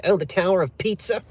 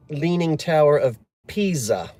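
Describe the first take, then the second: First: "Pizza" said like the food, with a ts sound; mock the wrong "Pizza", as in pizza pie; imitating people who say "Pizza" for Pisa; mispronounced Pisa. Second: Said in the usual way. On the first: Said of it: "when people say". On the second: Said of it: "I didn't say pizza".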